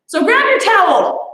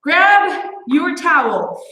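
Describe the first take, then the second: First: Said in the usual way. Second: Slow, drawn-out Grab your towel; slow it right down on Grab your towel; slow repeat. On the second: Shown as a demonstration.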